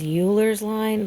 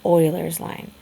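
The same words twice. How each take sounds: First: Euler's said "YOO-lerz", as spelt; Euler's as "Yuler's", the mistaken reading; misreading as "Yuler's". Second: Euler's said "OY-lerz"; Euler's as "Oiler's", the proper name; correct "Oiler's" pronunciation. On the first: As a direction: say Euler's with a "you" sound at the start. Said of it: "looks like it says Euler's line". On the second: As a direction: say Euler's with an "oil" sound at the start. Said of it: "but it's pronounced Euler's line". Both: Shown as a demonstration.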